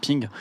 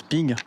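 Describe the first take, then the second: First: Quick clipped mock ping echo; short imitated ping. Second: Drawn-out mock metallic ping of the Garand clip; imitated rifle ping. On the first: Joking to viewers about the Garand, short mock ping echo. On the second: Joking to viewers about the Garand, long mock ping. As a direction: ring it out long like the ejected clip. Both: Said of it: "trêve de plaisanterie".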